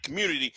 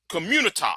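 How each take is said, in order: First: Said in the usual way. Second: "community" ending in an open "tah"; altered pronunciation. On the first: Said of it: "I don't use that word". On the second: Shown as a demonstration. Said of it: "I use that term".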